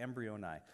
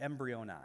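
First: "embryoni" repeated lower, EM-bree-oh-nye, ending falling; Greek word repeated. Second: "embryoni" said as EM-bree-oh-nee, stress on the first syllable; Greek word. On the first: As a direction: say "embryoni" again as a clear confirmation. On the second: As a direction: pronounce "embryoni" carefully, syllable by syllable. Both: Shown as a demonstration. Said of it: "the Greek word here is".

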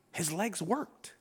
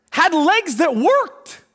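First: Soft, low and slow, no excitement; low-key, matter-of-fact; sterile reading. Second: "worked" drawn out and rising; higher, slow, amazed stress on "worked"; emphatic wonder. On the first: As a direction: read it off as routine fact. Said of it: "like, sterile". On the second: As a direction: marvel at it, stretching "worked" upward. Preacher stresses the miracle, against sterile. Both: Shown as a demonstration.

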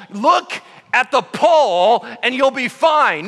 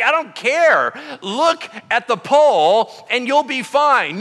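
First: Louder, higher, slow spelled-out order; exasperated repetition. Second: Louder, higher, slow and insistent order; stubborn insistence. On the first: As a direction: repeat it slowly, losing patience. Moses repeats order. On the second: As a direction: lay down the law, slowly. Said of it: "He's like". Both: Retold or imitated.

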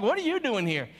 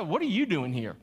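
First: A touch higher, suspicious what-are-you-doing-here; mock judgmental challenge. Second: Judgmental tone. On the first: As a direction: needle him like he doesn't belong. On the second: Retold or imitated. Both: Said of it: "Like, in that tone of voice".

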